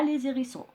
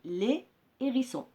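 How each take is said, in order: First: A z sound links the two words. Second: The words are said separately, with no z link. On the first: The speaker calls it wrong. "on ne dit pas les hérissons. C'est faux" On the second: The speaker calls it right. "on dit les hérissons"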